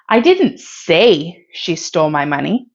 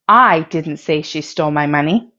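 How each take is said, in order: First: The stress falls on the word say. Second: The stress falls on the word I. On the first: It was communicated in some other way. "If you stress say" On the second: Someone else said it. "If you stress the word I"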